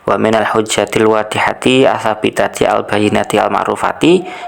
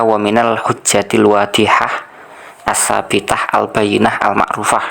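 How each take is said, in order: First: The adjectives end with a final -i vowel. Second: The adjectives end without a final vowel. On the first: The speaker calls it right. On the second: The speaker calls it wrong.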